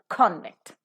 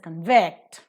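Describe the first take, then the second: First: The stress is on the first syllable. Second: The stress is on the second syllable. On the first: It is a noun. "Because it is used as a noun, the first syllable is to be stressed" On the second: It is a verb. "The stress automatically shifts from the first syllable to the second syllable"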